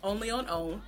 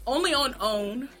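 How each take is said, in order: First: "only on own" again, quieter, rising at "on"; softer slogan. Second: "only on own" said like a network tagline; sing-song "only on own" with a rising end; ad slogan. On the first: Repeating the channel's slogan, quieter. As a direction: lightly echo "only on own" as the tagline. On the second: Repeating the channel's slogan, like a promo. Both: Shown as a demonstration. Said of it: "I have to say it like that".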